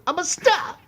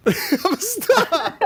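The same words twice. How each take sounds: First: Very high, put-on voice; quoting Dog Day Afternoon in falsetto; movie quote. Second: High, drawn-out echo with a laugh; echoing the star line in falsetto; high slow quote. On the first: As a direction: shriek it like a camp star. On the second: Retold or imitated. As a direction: stretch it out slowly, laughing.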